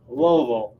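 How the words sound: The name is squeezed nearly into one syllable. This is how people in Kentucky say it. "in Kentucky they call it ... one syllable"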